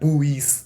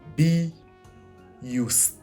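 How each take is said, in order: First: It begins with a blended 'bu' sound. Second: It begins with a separate 'bee' syllable. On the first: The speaker calls it wrong. "that doesn't sound like be used. That's buoyed" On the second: The speaker calls it right. "So it's be used, right?"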